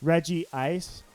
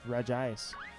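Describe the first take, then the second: First: It is said as Reggie plus Ice, three syllables. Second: It is said without the extra vowel, two syllables. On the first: The speaker calls it wrong. "I used to call it Reggie Ice until I realized there was no second I" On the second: The speaker calls it right. "There's no double I in there. It's just Regice"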